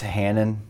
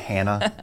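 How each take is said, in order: First: The name ends with a clear N sound. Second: The name ends in a vowel, without N. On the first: The speaker calls it right. "I just want to make sure it's Hanan" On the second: The speaker calls it wrong. "not Hannah"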